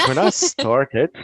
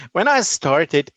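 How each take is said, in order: First: Slow, drawn-out opening words; slow dramatic start. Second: Said in the usual way. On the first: Shown as a demonstration. Guest opening the interview, slow and dramatic. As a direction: stretch it out like a grand intro.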